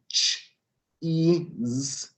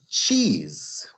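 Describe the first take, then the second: First: The word is split into separate sounds. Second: The word is said quickly as one unit. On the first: "first we're going to start out ch-ease" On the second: "then we're going to say it quickly"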